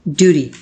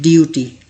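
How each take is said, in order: First: ड्यूटी with no y sound and a flapped t, the right way; correct pronunciation. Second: ड्यूटी as "dyooti", with a y-glide after the d; ड्यूटी with a y sound after the d, the mistake being shown; wrong pronunciation. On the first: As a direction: say ड्यूटी like American "doody". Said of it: "इसकी correct pronunciation होती है". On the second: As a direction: say ड्यूटी like "dyooty", the common error. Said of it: "लोग इसे pronounce करते हैं". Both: Shown as a demonstration.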